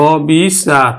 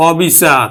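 First: অবিচার slowly as অ-বি-চার; slow, separated syllables in অবিচার; open vowel, syllabified. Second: Said in the usual way. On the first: Shown as a demonstration. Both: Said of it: "অ এর মতোই উচ্চারণ হবে".

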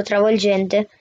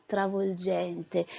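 First: "travolgente" higher, slow, falling at the end. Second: "travolgente" said softer and slow, drawn out. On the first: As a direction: lift "travolgente" up high then let it fall slowly. ("travolgente" più acuto e lento) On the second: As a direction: breathe out "travolgente" slowly and softly. ("travolgente" piano e lento) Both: Acted. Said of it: "Non l'aveva già detto travolgente?".

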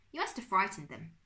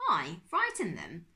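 First: Said in the usual way. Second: Loud, incredulous rising question; affronted echo. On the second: A narrator's reading. Uncle Max answers Bertolt's accusation, affronted. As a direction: echo it back in disbelief.

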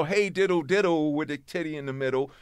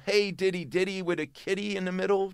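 First: "diddle, diddle" closing on a dark L; misheard lyric pronunciation. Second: "diddy, diddy" rhyming with "kitty"; original lyric pronunciation. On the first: Showing their messed-up version, "diddle" ending in L. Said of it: "And we go". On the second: Showing how the original singer says it, "diddy" without an L. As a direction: say "diddy" ending in a plain ee, no L. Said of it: "two different words that we messed up". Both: Shown as a demonstration.

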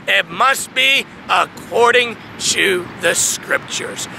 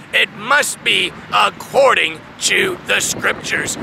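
Both takes have the same delivery.

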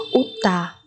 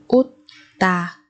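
First: Said in the usual way. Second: Utta split with a long gap; syllable by syllable. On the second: Shown as a demonstration. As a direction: pause between the syllables of Utta. Teacher splits word by syllable. (đọc Utta tách từng âm tiết)

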